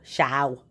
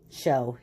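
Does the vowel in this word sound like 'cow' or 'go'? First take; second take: cow; go. First: The vowel sounds like the vowel in 'cow'. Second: The vowel sounds like the vowel in 'go'. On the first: The speaker calls it wrong. "Doesn't sound right" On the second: The speaker calls it right. "So we'll try it with the other sound"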